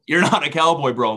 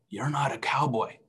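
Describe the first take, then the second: First: Louder, mock-exasperated rebuke; emphatic buddy-style telling-off; insistent correction. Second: Softer, understated quoted rebuke; quietly acted telling-off; soft correction. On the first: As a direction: drive the point home, lightly acted. Acted God correcting him, insistent repeat. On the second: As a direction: gently set him straight. Acted God correcting him, first take.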